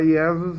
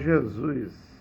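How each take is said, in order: First: The name starts with a Y-like I sound. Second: The name starts with a J sound. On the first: This is the older form before the letter J. "em vez de falar" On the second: This is the later form after the letter J. "com o nascimento do J ... agora o mundo todo vai falar"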